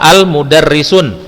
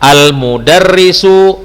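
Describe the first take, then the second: First: The word ends with an added n sound. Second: The word ends on a plain short vowel. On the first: The speaker calls it wrong. "Tidak boleh kita baca" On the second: The speaker calls it right. "namun kita membacanya"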